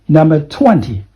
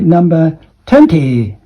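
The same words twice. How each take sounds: First: It is said without a Hong Kong accent. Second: It is said with a Hong Kong accent. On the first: The speaker calls it right. "That is twenty" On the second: The speaker calls it wrong. "that is Hong Kong accent, I think"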